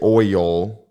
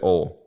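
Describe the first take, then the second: First: The vowel glides from o toward ee. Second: The vowel is one deep o sound. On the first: "I won't say oil" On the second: "that like deep O"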